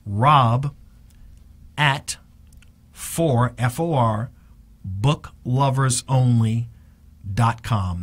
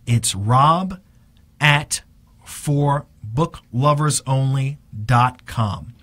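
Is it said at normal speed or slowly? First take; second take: slowly; normal. First: It is said slowly. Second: It is said at a normal speed.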